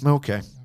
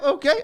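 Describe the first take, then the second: First: It is said in a sarcastic, passive-aggressive tone. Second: It is said in a willing, agreeable tone. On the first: The speaker resentfully goes along with it. "in this passive aggressive, like" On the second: The speaker willingly accepts the request.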